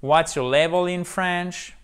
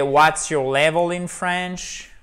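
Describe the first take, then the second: First: Higher, careful English question; model English question. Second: Slow, careful English question; model English question. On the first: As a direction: read the question once more. (question modèle répétée) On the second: (question modèle en anglais, lente) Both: Shown as a demonstration. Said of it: "Vous pouvez même rajouter".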